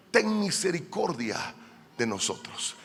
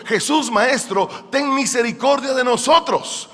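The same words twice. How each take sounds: First: Hushed acted plea for mercy; subdued, imploring murmur; soft plea. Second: Raised, higher acted plea; imitating lepers crying out to their master; retold plea cried out. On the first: Acts lepers' plea, now hushed. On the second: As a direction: call out for mercy from afar, mildly shouted. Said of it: "o sea, gritaron diciendo".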